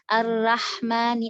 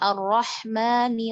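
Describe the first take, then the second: First: The r is pronounced light and thin. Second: The r is pronounced heavy and thick. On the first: The speaker calls it wrong. "ro-nya tuh dibaca tipis" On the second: The speaker calls it right. "ro-nya itu kan tebal"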